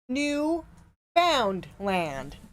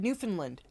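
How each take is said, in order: First: It is said as three separate words. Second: It is said as one joined word. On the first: The speaker calls it wrong. "he pronounced it New Found Land" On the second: The speaker calls it right. "it's like one word"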